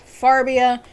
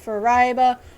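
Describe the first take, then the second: First: The name is said as Far-bi-a. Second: The name is said with altered sounds or stress. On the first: "or even worse, Farbia" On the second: "people will mispronounce it as Fariba"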